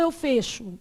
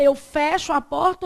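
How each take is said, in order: First: Fecho said with a closed ê, fêcho. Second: Fecho said with an open é, fécho. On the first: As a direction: keep the e of fecho closed and tight. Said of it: "Vocês já sabem, fecho". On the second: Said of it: "o certo é ... ou eu fecho?". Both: Shown as a demonstration.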